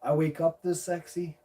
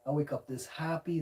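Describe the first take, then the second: First: Mock vain. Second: Said in the usual way. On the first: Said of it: "I can't help it being so sexy".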